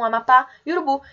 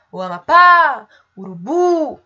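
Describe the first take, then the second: First: Said in the usual way. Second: Loud, raised hailing call, last syllables drawn out; long, ringing "pá" in "Amapá" and "bu" in "Urubu". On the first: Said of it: "O mesmo acontece com". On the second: Shown as a demonstration. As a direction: call "Amapá" and "Urubu" as if to someone far away. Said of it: "se vocês fizerem esse exercício de chamar".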